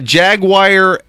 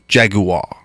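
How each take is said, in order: First: It is said in a plain American way. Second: It is said like the European commercial announcer.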